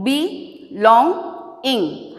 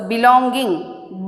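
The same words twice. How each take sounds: First: "belonging" split slowly into be, long, ing; syllable by syllable. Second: Said in the usual way. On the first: Shown as a demonstration. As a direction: pause between each syllable of "belonging". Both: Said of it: "break the words below into syllables".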